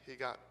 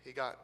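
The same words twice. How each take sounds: The two takes are said the same way.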